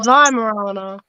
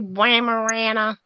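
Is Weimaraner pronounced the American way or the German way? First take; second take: German; American. First: The word is pronounced the German way. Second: The word is pronounced the American way. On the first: The speaker calls it right. "We say Weimaraner, like the Germans. We say it properly" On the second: The speaker calls it wrong. "Only Americans say Weimaraner"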